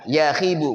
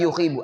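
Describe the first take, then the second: First: The first syllable has an 'a' vowel. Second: The first syllable has a 'u' vowel. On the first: "dibaca fathah huruf awalnya" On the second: "atau dibaca dhamma"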